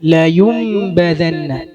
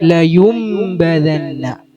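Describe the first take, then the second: No difference in how they are said.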